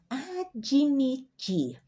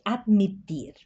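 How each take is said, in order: First: An extra i vowel follows the d sound. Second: The d runs straight into the m sound. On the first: "nós pronunciamos como fosse uma i" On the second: "Espanhol é admitir"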